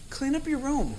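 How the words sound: It is said in a gentle, unthreatening tone.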